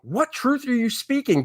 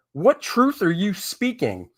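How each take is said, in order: First: High, incredulous, exasperated question; pitched up, baffled at the slogan. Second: Incredulous. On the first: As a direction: ask it higher, in disbelief. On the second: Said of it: "What in the absolute F is this". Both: Real, not acted.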